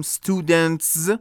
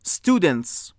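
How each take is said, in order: First: "students" with a buzzed z at the end, "studentz"; awkward voiced ending. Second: "students" ending in a hissed ts; final voiceless s. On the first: Teacher shows the hard-to-say version, "students" ending in z. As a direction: force a voiced z after the t in "students", slowly. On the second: Teacher gives an example of the s ending, "students" with voiceless s. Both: Shown as a demonstration.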